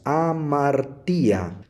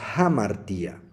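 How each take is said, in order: First: The word starts directly with the vowel. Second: The word starts with a light breathy h. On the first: The speaker calls it wrong. "si nosotros no respetamos la presencia de este espíritu fuerte" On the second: The speaker calls it right. "como está presente el espíritu fuerte ... se pronuncia como una H inglesa"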